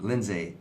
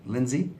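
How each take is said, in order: First: "Lindsay" said as LIN-zay, ending in "ay"; trying a pronunciation. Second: "Lindsay" said as LIN-zee, ending in "ee"; trying another pronunciation. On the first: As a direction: sound out "Lindsay" with a final "zay". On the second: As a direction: sound out "Lindsay" with a final "zee". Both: Shown as a demonstration. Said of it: "Sorry, I don't know how you say it".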